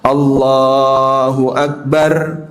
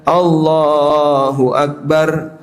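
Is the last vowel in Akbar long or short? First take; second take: short; short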